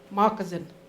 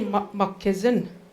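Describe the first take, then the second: First: It is said as the English word moccasin. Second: It is said in its original Ojibwe form. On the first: This is the changed, borrowed form. "it was changed into moccasin" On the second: This is the original word. "It's actually moccassin"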